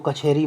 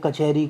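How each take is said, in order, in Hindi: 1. यह व्यंजन ज़ोरदार महाप्राण के साथ बोला गया है। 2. यह व्यंजन बिना महाप्राण के बोला गया है। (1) "अल्प प्राण का महाप्राण होना" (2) "अल्प प्राण का महाप्राण होना"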